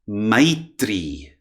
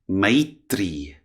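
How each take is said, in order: Both takes have the same delivery.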